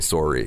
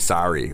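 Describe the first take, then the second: First: It is said with a Canadian accent. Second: It is said with an American accent. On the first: "We say sorry" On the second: "the Americans say sorry"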